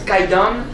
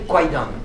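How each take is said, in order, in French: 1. La première syllabe se prononce simplement 'kai'. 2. La première syllabe se prononce avec un son 'kw'. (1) "on le prononce Kaidan" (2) "comme je voyais K-W-A-I, j'ai envie de prononcer ce film Kwaidan"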